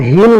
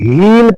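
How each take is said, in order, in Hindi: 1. स्वर छोटा और जल्दी है। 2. स्वर लंबा और दबा हुआ है। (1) "हील नहीं पढ़ के" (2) "इसमें थोड़ा प्रेशर देना पड़ेगा"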